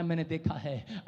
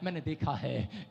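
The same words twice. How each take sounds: First: Soft, low, falling; quiet voice of God. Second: Soft and low, slow; a hushed promise; quiet voice of God. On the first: Preacher repeats the Spirit's words to the crowd, hushed. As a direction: hush it like a solemn vow. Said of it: "कह रहा". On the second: Preacher voicing the Holy Spirit to the congregation, soft and low. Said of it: "पवित्र आत्मा कह रहा है". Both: Acted.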